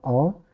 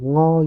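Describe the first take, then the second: First: The syllable starts directly with the vowel. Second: The syllable starts with an ng sound. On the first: The speaker calls it right. "Tapi tetap O" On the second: The speaker calls it wrong. "Bukan jadi ngo gitu, bukan"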